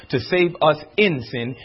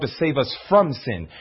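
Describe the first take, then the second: First: "in" set apart with contrastive stress. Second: "from" given firm contrastive stress. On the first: Preacher corrects a misunderstanding of salvation, stressing "in". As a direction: lean on "in" before "sin". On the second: Preacher tells congregation Christ's true purpose, stressing "from". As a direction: lean on "from" before "sin". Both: Real, not acted.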